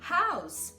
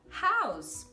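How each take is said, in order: First: The final consonant is a hissing S sound. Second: The same.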